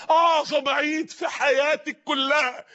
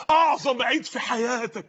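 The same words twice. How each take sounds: First: اعظم stretched very slowly, climbing higher; building emphasis. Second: اعظم stressed, words drawn out slowly; slow, weighty stress on اعظم; slow emphatic. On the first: Preacher to young listeners, slower, higher and rising. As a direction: spell out اعظم each word heavier. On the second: Preacher to young listeners, slow and weighty. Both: Shown as a demonstration.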